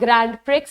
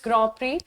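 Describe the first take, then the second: First: The final d and x sounds are pronounced. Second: The final d and x sounds are silent. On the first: The speaker calls it wrong. "It's not ग्रैंड प्रिक्स" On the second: The speaker calls it right. "इसको ना ग्रॉ प्री बोला जाता है"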